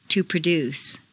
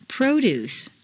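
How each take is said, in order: First: ProDUCE, stressed on the second syllable. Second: PROduce, stressed on the first syllable. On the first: Teacher models verb "produce", second-syllable stress. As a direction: hit DUCE in "produce". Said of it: "to the second syllable". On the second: Teacher models noun "Produce", first-syllable stress. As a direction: hit PRO in "Produce". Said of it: "first syllable for nouns". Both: Shown as a demonstration.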